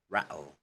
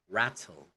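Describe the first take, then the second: First: The t is replaced by a glottal stop. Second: The t is a clear t sound. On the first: "in Cockney they pronounce it because they remove the T's, the glottal T" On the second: "in British, not Cockney, they pronounce it as"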